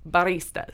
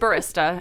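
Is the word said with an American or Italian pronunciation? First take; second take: Italian; American. First: The word is said with an Italian pronunciation. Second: The word is said with an American pronunciation. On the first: "In Italy, it's baristas" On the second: "In America, it's barista"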